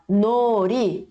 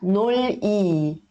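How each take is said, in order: First: The middle consonant is an R sound. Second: The middle consonant is an L sound. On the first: The speaker calls it right. "Então fica uh, nori" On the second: The speaker calls it wrong. "ao invés de falar noli"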